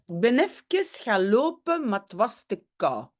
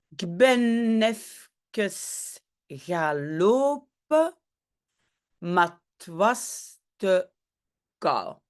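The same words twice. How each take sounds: First: The sentence is spoken at a normal pace. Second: The sentence is spoken slowly and deliberately.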